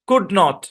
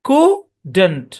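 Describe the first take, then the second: First: It is said as two separate full words. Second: It is said as one short contracted word. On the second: "এটার contraction হচ্ছে কুডন্ট"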